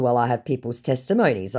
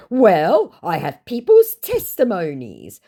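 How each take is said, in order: First: Said in the usual way. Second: High, loud, slow defence; drawn-out mock-earnest scammer voice. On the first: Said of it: "And in response to". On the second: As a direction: insist as the put-on scammer. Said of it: "he says".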